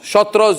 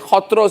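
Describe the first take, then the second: First: The word begins with a 'sh' sound. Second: The word begins with an 'h' sound. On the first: This is how others say it. The speaker calls it wrong. "you say" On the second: This is the correct way to say it. The speaker calls it right. "the right pronunciation"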